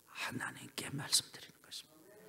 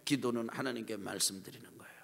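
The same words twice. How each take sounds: First: Soft unvoiced whisper of 하나님께 말씀드리는 것입니다; hushed 하나님께 말씀드리는 것입니다. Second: Soft unvoiced whisper of 기도는 하나님께 말씀드리는 거예요; hushed repeat. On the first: Whispered repeat. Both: Shown as a demonstration.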